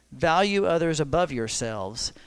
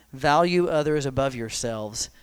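Both takes have the same delivery.

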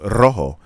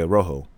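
First: The R is rolled. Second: The R is not rolled. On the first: The speaker calls it right. "No, rojo" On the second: The speaker calls it wrong. "she don't roll her R's"

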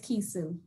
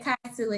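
First: The first vowel sounds like 'ee'. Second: The first vowel sounds like 'eye'. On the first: The speaker calls it right. "and it is Kisu" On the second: The speaker calls it wrong. "You said Kaisu"

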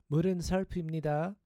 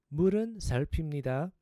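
No difference in how they are said.

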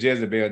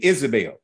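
First: The name begins with a J sound. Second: The name begins with a vowel, no J sound. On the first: The speaker calls it wrong. "We said Jezebel. There are no J's in Hebrew" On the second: The speaker calls it right. "That's the correct pronunciation of her name"

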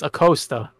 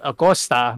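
First: The name has an English pronunciation. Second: The name has a Spanish pronunciation. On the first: The speaker calls it wrong. "but everybody says" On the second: The speaker calls it right. "my last name the right way, which is"

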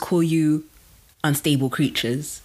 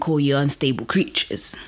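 First: It is said plainly, with less force. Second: It is said with more force and drive.

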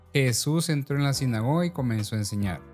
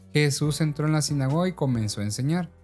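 Both takes have the same delivery.

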